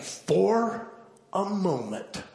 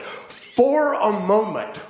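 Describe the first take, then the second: First: Said in the usual way. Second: "for a moment" drawn out very slowly, higher and louder; stress on moment. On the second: Shown as a demonstration. Preacher stressing the word "moment" to the congregation, slow and emphatic. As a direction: lean hard on "moment", stretching every word. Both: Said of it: "I emphasize the word moment".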